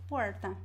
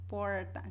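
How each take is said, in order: First: The R is curled back like English R. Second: The same.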